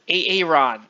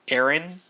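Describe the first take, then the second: First: The name is said in a distorted, odd way. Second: The name is said in its ordinary way. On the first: The speaker calls it wrong. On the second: The speaker calls it right.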